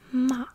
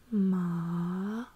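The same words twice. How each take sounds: First: The pitch starts high and falls. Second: The pitch dips low, then rises again. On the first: "you go downwards with your voice" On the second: "lowering my voice first"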